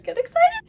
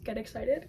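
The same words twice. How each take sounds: First: Sudden high excited yell; excited shout. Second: Said in the usual way. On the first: Real, not acted. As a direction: hype it up, much louder and higher. Builds hype, then repeats louder.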